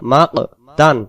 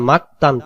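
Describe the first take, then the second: First: The middle consonant is released with a bouncing echo. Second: The middle consonant is a plain, light k. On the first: The speaker calls it right. "কলকলা করব মা ক তান" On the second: The speaker calls it wrong. "কফ অক্ষরটা ... কাফে রূপান্তরিত হইতেছে"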